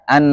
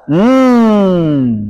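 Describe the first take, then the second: First: The n sound is held at a moderate length. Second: The n sound is released into a long hum. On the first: The speaker calls it right. "Maka antaranya" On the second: The speaker calls it wrong. "Kalau terlalu dilepas"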